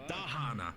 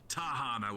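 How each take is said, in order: First: The name begins with a D sound. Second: The name begins with a T sound. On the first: The speaker calls it right. "with a D" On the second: The speaker calls it wrong. "not Tahana with a T"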